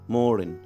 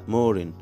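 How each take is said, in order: No difference in how they are said.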